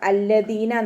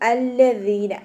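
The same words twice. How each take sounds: First: The middle consonant is a hard 'd' sound. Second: The middle consonant is a soft 'th' sound. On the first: The speaker calls it wrong. "അല്ലദീന നാവരുത്" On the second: The speaker calls it right. "നാവിന്റെ ടിപ്പ് മേലെ മുൻപല്ലിന്റെ അറ്റത്ത് കൊണ്ടിട്ട് വെക്കുക"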